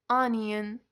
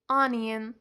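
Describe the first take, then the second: No difference in how they are said.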